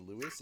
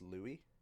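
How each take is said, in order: First: The name is said with a final s sound. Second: The name is said with no final s sound. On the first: The speaker calls it wrong. "it's not usually Lewis" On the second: The speaker calls it right. "It's pronounced Louis"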